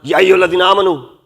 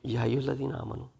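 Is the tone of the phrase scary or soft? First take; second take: scary; soft. First: The phrase is said in a harsh, scary tone. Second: The phrase is said in a soft, loving tone. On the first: The address frightens the listeners. The speaker calls it wrong. "It would be scary" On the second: The address shows love and compassion to the listeners. The speaker calls it right. "as if Allah is saying it"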